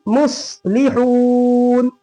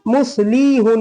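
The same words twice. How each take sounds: First: "मुस्लिहून" with quick "लि", very long held "हून"; long haa. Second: "मुस्लिहून" with "लि" dragged into long "ली"; wrongly lengthened vowel. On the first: Teacher giving the corrected reading, long haa. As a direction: hurry "लि", draw out "हून" slowly. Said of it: "लाम को जल्दी हा को खींचेंगे". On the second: Teacher showing how not to read it, wrongly lengthened vowel. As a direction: stretch "लि", cut "हून" shorter. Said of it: "मुस्लिहून नहीं पढ़ेंगे". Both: Shown as a demonstration.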